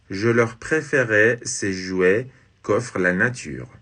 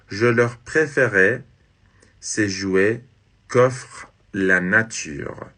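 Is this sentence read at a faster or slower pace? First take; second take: faster; slower. First: It is read at a normal, quicker pace. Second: It is read at a slower, more deliberate pace.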